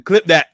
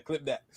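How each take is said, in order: First: Laughing call, loud and high; loud laughing shout. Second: Quiet repeat. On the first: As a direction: shout it out while cracking up. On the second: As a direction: drop it down to a murmur. Repeats it quietly after laugh. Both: Real, not acted.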